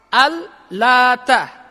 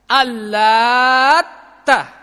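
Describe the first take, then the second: First: The t sound is short, not doubled. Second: The t sound is held long and doubled. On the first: "Dengan takhfif, takhfif itu artinya enggak ditasydid" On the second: "Bacaan yang kedua itu dengan tasydid"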